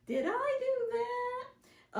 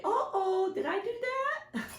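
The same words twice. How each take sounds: First: Much higher and slowly drawn-out goofy voice; slow sitcom catchphrase. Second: Much higher, goofy nerdy TV voice; TV sitcom catchphrase. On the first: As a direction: stretch each word like the sitcom nerd. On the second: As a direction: play it like the clumsy sitcom kid. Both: Retold or imitated. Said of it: "old T V show".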